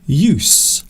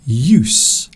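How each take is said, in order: First: It is pronounced the way the noun is. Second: It is pronounced the way the noun is.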